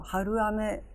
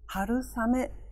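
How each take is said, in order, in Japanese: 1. 「ame」の前に「s」の音はありません。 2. 「ame」の前に「s」の音が入ります。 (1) "春雨ではなく" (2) "間にエスの音が入って春雨となる"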